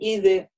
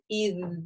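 First: A short vowel is added after the consonant. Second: The word ends cleanly on the consonant. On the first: The speaker calls it wrong. "не говорим «иды»" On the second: The speaker calls it right. "например, «ид»"

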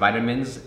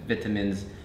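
First: It is said with an American pronunciation. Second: It is said with a British pronunciation. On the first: "in the US" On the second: "in the UK"

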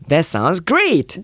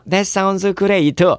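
First: It is said with lively, full emotion. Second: It is said flatly, without emotion. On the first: The speaker calls it right. "꼭 그렇게 얘기를 해야만 됩니다" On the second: The speaker calls it wrong. "이거 안 됩니다"

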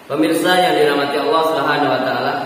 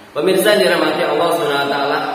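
No difference in how they are said.

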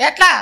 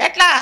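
Both takes have the same delivery.

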